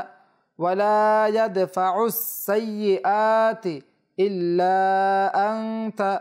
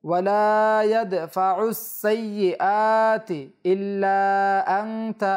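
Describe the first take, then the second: Both takes have the same delivery.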